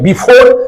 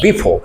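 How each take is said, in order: First: The second syllable is drawn out long. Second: The second syllable is said short. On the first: The speaker calls it wrong. "फोर को time के और लंबा कर देते हैं" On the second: The speaker calls it right. "आपको कहना होगा बिफोर"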